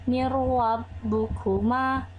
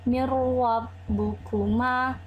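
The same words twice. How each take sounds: The two takes are said the same way.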